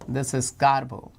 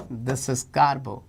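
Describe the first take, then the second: No difference in how they are said.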